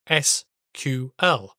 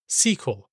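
First: It is spelled out letter by letter. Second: It is said as a single word. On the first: This is the official standard pronunciation. "the official pronunciation for those three letters is SQL" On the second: This is a common non-standard pronunciation. "the non-standard pronunciation like the word SQL"

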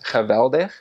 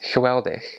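First: The w is pronounced like a v. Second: The w is pronounced like an English w. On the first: This is how a Dutch person says it. "where a Dutch person says geweldig" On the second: This is how a Belgian says it. "a Belgian says geweldig"

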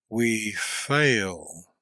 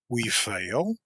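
First: It is a slow, admiring exclamation. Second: It is a quick, scornful question. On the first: "with the note of admiration" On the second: "a quick, contemptuous interrogation"

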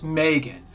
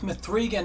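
First: The name is said as plain Megan. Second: The name is said with 'three' in the middle. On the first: This is the name's intended pronunciation. "I know it's Megan" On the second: The name is read literally from its stylized spelling. "I'm going to pronounce it exactly as they spell it"

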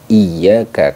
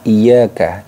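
First: The y sound is pressed and held long. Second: The y sound is light and short. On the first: The speaker calls it right. "Jadi harus ditekan membacanya" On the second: The speaker calls it wrong. "Ketika kita membaca ringan, terlalu ringan, jadi seolah-olah itu hanya jadi iyyaka"

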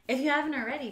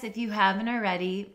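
First: It is said in a plain, ordinary voice. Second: It is said in a put-on, sultry voice.

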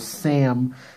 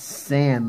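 First: The name ends with an m sound. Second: The name ends with an n sound. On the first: The speaker calls it wrong. "I always say Sam P because it sounds more natural" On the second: The speaker calls it right. "but it's San, like S-A-N"

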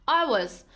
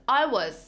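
Both takes have the same delivery.

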